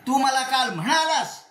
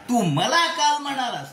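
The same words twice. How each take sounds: First: The stress falls on the word म्हणालास. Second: The stress falls on the word मला. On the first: You told me in person, not just by message. "केवळ नुसते S M S टाकला नाही, मला बोललास तू" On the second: You said it to me, not to anyone else. "दुसऱ्या कोणाला नाही, मला म्हणलास"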